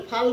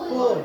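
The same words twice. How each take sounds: First: "ফাল" with an open aa vowel; mistaken reading. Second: "পুত" as English full, rounded oo vowel; correct reading. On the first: Teacher warns learners against this reading, "ফাল" with aa. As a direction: misread full as "ফাল", with aa. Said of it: "ফাল বুলি নপঢ়ে". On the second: Teacher answers how full is read, "পুত" with oo. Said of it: "F U double L কি বুলি পঢ়িব লাগিব". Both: Shown as a demonstration.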